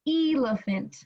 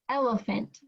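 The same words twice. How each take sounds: First: The first vowel is long, like 'ee'. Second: The first vowel is short, like 'eh'. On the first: The speaker calls it wrong. "If it was long" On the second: The speaker calls it right. "how it would sound if it was short"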